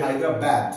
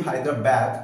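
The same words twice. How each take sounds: First: হায়দ্রাবাদ with a plain open a on বাদ; হায়দ্রাবাদ বাংলা উচ্চারণে; Bengali-style Hyderabad. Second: হায়দ্রাবাদ with the last a flattened toward bad; British ঢঙে হায়দ্রাবাদ; British-style Hyderabad. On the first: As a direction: say হায়দ্রাবাদ ending in a clear bad. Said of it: "যদি আমরা এভাবে উচ্চারণ করি". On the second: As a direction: say হায়দ্রাবাদ the British way, ending like bæd. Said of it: "ব্রিটিশদের মতো যদি উচ্চারণ করি". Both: Shown as a demonstration.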